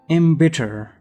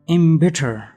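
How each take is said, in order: The two takes are said the same way.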